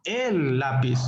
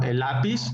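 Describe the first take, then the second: First: "el" punched and held, then "lápiz" falls away; stress on EL. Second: Said in the usual way. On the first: Shown as a demonstration. Teacher showing how stress changes meaning, stress on "el". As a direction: lean hard on "el". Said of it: "Estresamos una palabra". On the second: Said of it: "Intonación. Estresamos una palabra".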